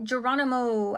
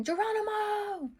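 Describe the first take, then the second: First: Said in the usual way. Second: Mock battle cry. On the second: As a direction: call it out long with the last syllable held up high. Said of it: "I was hearing Geronimo".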